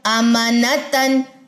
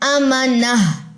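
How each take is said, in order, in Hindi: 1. शब्द नासिक्य '-tan' ध्वनि से खत्म होता है। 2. शब्द नरम '-ah' ध्वनि से खत्म होता है।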